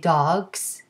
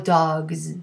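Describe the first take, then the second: First: The word ends with a voiceless s sound. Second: The word ends with a voiced z sound. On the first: "more like an S" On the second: "more like a Z"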